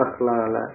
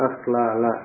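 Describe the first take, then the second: Both takes have the same delivery.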